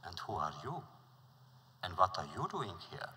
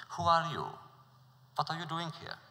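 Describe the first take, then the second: First: Polite wise man returning the prince's question. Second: Higher, louder suspicious questioning; suspicious prince challenging the newcomer. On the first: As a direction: turn the question back politely. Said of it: "And he was polite". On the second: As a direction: demand it with suspicion. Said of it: "Suspicious, the prince questioned him". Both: Acted.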